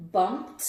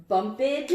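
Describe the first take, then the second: First: "bumped" ending in a crisp T, no extra syllable. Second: "Bumped" said wrongly as bump-id, with an extra syllable; wrong ID ending. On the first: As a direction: say "bumped" as bumpt, short and clean. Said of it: "another one for the T category". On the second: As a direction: say "Bumped" as bump-ED, rising and a bit louder. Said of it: "Which version of the E D ending". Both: Shown as a demonstration.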